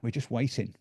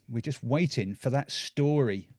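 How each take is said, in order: First: "waiting" leaned on with a falling tune; stress on waiting. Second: "waiting" stressed and stretched, falling at the end. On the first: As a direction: drop the voice on "waiting". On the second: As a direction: draw out "waiting" and let it fall. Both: Shown as a demonstration.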